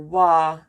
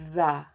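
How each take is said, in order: First: The word starts with a w sound. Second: The word starts with a voiced th sound. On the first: The speaker calls it wrong. "or wa" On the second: The speaker calls it right. "You can say the"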